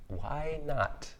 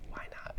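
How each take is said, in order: First: High, drawn-out "why not"; "why not" lifted high and held; musing question. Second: "why not" in a whisper; very soft, whispered "why not"; whispered echo. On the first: Rhetorical question, then repeated softly. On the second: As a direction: drop "why not" to a hushed aside. Soft echo of own question. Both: Real, not acted.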